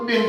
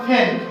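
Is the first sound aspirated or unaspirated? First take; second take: unaspirated; aspirated. First: The p is unaspirated, with no puff of air. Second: The p is aspirated, with a puff of air. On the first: The speaker calls it wrong. "পেনকে আমরা সাধারণত পেন বলি" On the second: The speaker calls it right. "আসলে পেনের সঠিক উচ্চারণটা হবে ফেন"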